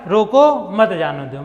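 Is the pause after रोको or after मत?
after रोको. There is a pause after रोको.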